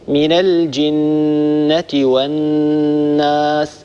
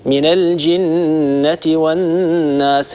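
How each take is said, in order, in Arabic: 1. الغنة على النون تبقى ثابتة. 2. الغنة على النون تهتز وتتذبذب. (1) "الصواب هكذا" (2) "يطننون ويهزهزون ويموجون هذه الغنن، يقرأ هكذا"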